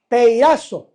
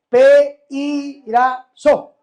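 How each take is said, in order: First: The stress is on the 'ra' syllable. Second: The stress is not on the 'ra' syllable.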